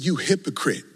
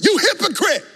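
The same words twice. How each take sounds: First: It is said at normal volume. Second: It is shouted loudly.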